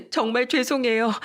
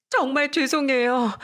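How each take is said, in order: First: A touch higher, sorry "정말 죄송해요"; "정말 죄송해요" said tearfully at normal pace; kneeling, apologizing to sister-in-law, mildly tearful; tearful apology. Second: "정말 죄송해요" slow, higher, stressing 정말; kneeling, apologizing again, slower and higher; slow tearful apology. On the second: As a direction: drag out "정말 죄송해요" pleading. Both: A narrator's reading. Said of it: "하염없이 울더니".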